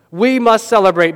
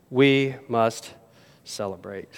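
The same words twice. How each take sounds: First: Louder, stirring proclamation; emphatic. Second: Much softer, lower, dropping away; hushed. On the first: Preacher declares to the congregation: emphatic call. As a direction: proclaim it to the whole church. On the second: Preacher repeats the call to the congregation, hushed. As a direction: let it fall to a hush. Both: Shown as a demonstration. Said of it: "repeats the line, first loud then hushed".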